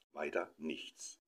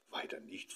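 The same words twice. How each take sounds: First: Said in the usual way. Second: Breathless hopeful whisper with rising question; hopeful whispered question on „nichts“. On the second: A narrator's reading. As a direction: ask it hushed, hoping for little gifts. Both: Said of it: "fragte die Tochter hoffnungsvoll".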